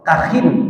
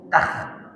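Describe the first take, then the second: First: The word ends with an added -in syllable. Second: The word ends on a bare final consonant. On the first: "dibaca dengan tanwin kasrah" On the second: "kha-nya itu dibaca sukun"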